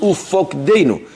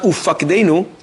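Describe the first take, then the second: First: The second vowel is an 'o' sound. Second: The second vowel is an 'a' sound. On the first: The speaker calls it right. "It's Ufokdeinu" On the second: The speaker calls it wrong. "But it's not Ufakdeinu"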